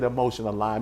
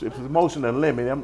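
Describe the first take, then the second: First: The final word sounds like 'lime'. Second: The final word sounds like 'limit'. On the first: The speaker calls it wrong. "I pronounced the, the name wrong" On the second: The speaker calls it right. "It's, it's a motion of limit"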